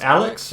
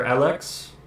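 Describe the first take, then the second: First: Said in the usual way. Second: Alex said "a-LEKS", with weight on the second syllable; Alex with a fuller "eks" ending; alternative pronunciation. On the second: Shown as a demonstration. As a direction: offer Alex as "al-EKS", questioningly. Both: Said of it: "is it pronounced Alex or Alex".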